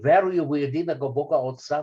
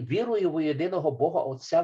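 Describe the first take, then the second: First: It is read with a Bulgarian pronunciation. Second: It is read with a Ukrainian pronunciation. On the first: "A Bulgarian might say" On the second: "A Ukrainian would say"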